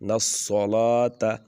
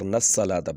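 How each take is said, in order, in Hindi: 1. 's' ध्वनि मोटी और भारी है। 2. 's' ध्वनि पतली और हल्की है। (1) "मोटा करके पढ़ते हैं" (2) "यहाँ पर नस्सलात पढ़ा जाता है, नस्सलात पढ़ेंगे सीन बन जाएगा"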